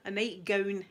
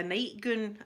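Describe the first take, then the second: First: Said in the usual way. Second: "nightgown" with an oo, like nightgoon; Scots pronunciation. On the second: Shown as a demonstration. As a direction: say "nightgown" the Scots way, ending in "goon". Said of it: "they call it a goonie".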